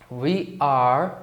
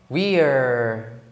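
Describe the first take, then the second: First: It is said as two full separate words. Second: It is said as one contracted syllable.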